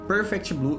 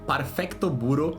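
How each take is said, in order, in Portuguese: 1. É dito como palavras simples do inglês. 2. É dito com sílabas japonesas e vogais acrescentadas.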